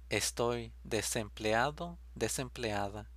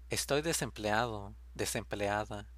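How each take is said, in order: Both takes have the same delivery.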